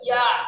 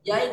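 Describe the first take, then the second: First: The vowel stays open with no glide. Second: The vowel glides into an ee sound. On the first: The speaker calls it right. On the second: The speaker calls it wrong.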